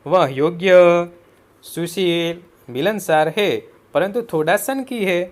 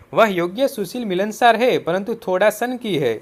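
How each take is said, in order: First: Long pause after "योग्य", another before "परंतु"; pauses for punctuation. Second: Said in the usual way. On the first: Shown as a demonstration. Teacher showing punctuation, pausing after "योग्य" and before "परंतु". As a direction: split into phrases at "योग्य" and "मिलनसार है". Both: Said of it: "उचित विराम चिन्ह का प्रयोग करके".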